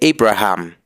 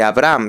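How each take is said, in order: First: The h in the name is breathy. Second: The h in the name is silent. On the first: The speaker calls it right. "se dice Abraham. ... La H se aspira" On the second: The speaker calls it wrong. "no se dice Abraham"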